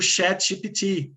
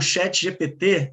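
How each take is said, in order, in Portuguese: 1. O nome é pronunciado com os sons das letras do inglês. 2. O nome é pronunciado com os sons das letras do português brasileiro.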